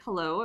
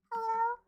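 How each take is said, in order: First: Said in the usual way. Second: Much higher, sing-song phone greeting; high phone hello. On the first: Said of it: "And then they're like". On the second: Retold or imitated. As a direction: answer the phone in a high cute voice. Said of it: "you're naturally".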